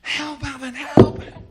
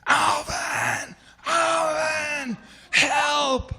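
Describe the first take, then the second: First: High, loud panicked cries; screaming for help. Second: Long, high, full-voiced call across water; panicked yell for help. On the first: Retold or imitated. Panicking swimmer screams to his buddy on shore, high urgent scream. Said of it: "I start screaming". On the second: Swimmer calls to his buddy for help, loud drawn-out yell. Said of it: "I yell".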